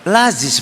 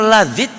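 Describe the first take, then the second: First: The name ends with a z sound. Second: The name ends with a d sound. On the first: It sounds like the name of an alms office. "Orang sini ngomongnya Laziz" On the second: It means delicious. "Orang Lazid dibacanya Lazid itu harusnya enak"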